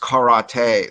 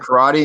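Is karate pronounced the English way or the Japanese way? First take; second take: Japanese; English. First: It is said with the Japanese pronunciation. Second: It is said with the usual English pronunciation. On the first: "that's how like the Japanese say it" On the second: "someone says"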